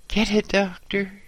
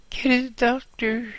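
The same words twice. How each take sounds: First: High pained cry for a doctor; injured boss on the ground pleading for a doctor; groaning plea. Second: Even higher strained plea for a doctor; injured boss begging louder for a doctor; desperate groan. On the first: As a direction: beg for help through the pain. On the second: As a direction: push the plea harder in panic. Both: Acted. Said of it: "he groaned".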